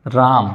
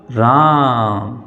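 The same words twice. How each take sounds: First: Said in the usual way. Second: राम with its आ held very long and slow; राम, the vowel drawn out as far as it goes; stretched vowel. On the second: Shown as a demonstration. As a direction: drag out राम for triple length. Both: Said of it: "तो खूब लंबा जाता है ना".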